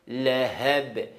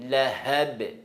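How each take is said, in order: The two takes are said the same way.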